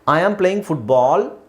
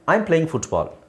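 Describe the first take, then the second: First: The last word is drawn out and rising. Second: The last word is short and falling.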